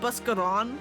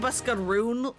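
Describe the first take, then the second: First: The name ends with a short 'ron' sound. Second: The name ends with a long 'roon' sound. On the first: This is the usual way to say the name. "instead of saying Buskaron" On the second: The name is said like the names of the creatures. "he was saying Buskaroon, like the Kikern names"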